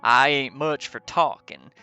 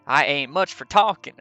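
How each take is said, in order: First: It has a strong cowboy accent. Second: It has only a mild cowboy accent. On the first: The speaker calls it right. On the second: The speaker calls it wrong.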